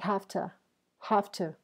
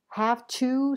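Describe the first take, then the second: First: The words blend together into a reduced form. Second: Both words are pronounced fully and separately.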